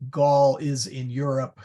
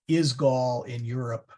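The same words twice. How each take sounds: First: Gaul is in Europe said as a flat statement, falling at the end; plain statement. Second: Is stressed at the front, Is Gaul in Europe asked as a question; question tune. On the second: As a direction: turn it into a question, leaning on Is. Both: Shown as a demonstration. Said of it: "We move the verb to the front".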